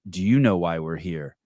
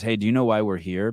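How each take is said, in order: First: Mock bitchy comeback, leaning on YOU; mildly catty retort; kinda bitchy. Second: Said in the usual way. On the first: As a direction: throw it back a little snottily, stressing "you". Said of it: "responds just kinda bitchy and goes". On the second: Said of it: "she's not even being rude".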